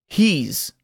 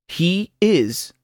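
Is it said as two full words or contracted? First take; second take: contracted; full. First: The words are joined into one syllable. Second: The two words are said in full. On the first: "luego contraído con el pronombre personal" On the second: "oirá el verbo sin contracción"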